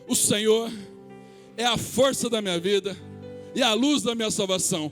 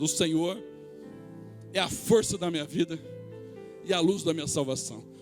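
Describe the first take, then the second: First: It is said louder and more forcefully. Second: It is said at normal volume.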